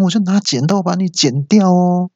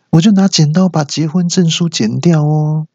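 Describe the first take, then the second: First: High sing-song wife threatening to cut 剪掉; sweet menacing threat. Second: High sing-song with 就 pushed hard, then 结婚证书剪掉哦 sweetly; corrected threat. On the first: Threat then correction. (妻子尖声甜腻地威胁“剪掉哦”) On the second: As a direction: lean on 就 as you swap in the marriage certificate. (尖声强调“就”，甜甜地说结婚证书剪掉哦) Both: Acted.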